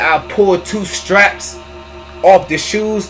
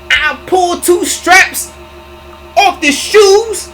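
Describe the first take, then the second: First: It is said in the speaker's normal voice. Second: It is said in an imitated, put-on voice.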